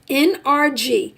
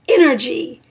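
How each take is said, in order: First: The letters are said slowly and separately. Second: The letters run together quickly into one word. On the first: "it's pronounced N R G" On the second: "if you say that fast"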